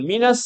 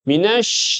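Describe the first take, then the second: First: The word ends with a plain s sound. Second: The word ends with an sh sound. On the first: The speaker calls it wrong. "Dia bilang. Salah alamat. Titiknya salah" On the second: The speaker calls it right. "Harusnya? Harusnya?"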